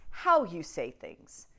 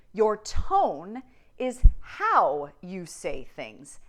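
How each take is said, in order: First: Said in the usual way. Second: "how" drawn out and stressed, very slow; slow emphatic. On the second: Shown as a demonstration. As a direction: lean hard on "how", slowly.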